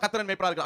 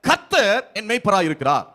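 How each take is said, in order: First: The line is said plainly with no emphasis. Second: The first word is said with strong emphasis. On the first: The speaker calls it wrong. "சும்மா ... அப்படி சொல்லக்கூடாது" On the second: The speaker calls it right. "கர்த்தர் அந்த அந்த பதத்துக்கு அழுத்தம் கொடுக்கணும்"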